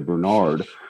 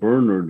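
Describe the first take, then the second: First: The name is said the American way. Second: The name is said the Irish way.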